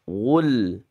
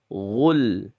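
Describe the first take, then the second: The two takes are said the same way.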